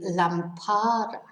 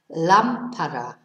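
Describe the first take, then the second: First: The stress is on the second syllable. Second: The stress is on the first syllable. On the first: The speaker calls it wrong. "lámpara needs an accent because otherwise it would be lampara" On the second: The speaker calls it right. "So our stress is on the first syllable"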